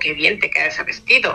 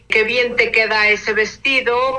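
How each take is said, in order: First: The tone is doubtful and sarcastic. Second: The tone is plain and sincere. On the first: The speaker doubts the dress looks good. "si cambio el tono ... lo estoy hasta cierta forma dudando" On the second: The dress really looks good. "como una observación objetiva"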